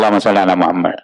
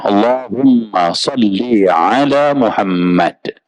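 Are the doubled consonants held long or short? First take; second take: short; long. First: The m and l sounds are short. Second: The m and l sounds are held long. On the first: The speaker calls it wrong. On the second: The speaker calls it right. "Humma double M, salli double L, ya, Muhammad double M"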